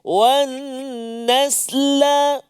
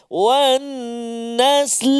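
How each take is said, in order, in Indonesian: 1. Konsonan akhir diikuti vokal pendek. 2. Kata berhenti pada konsonan akhir. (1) "kita bariskan dulu" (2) "Yang keempat kita tahan la tu"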